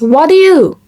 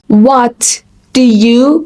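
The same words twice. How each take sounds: First: The three words are run together. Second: The three words are said separately.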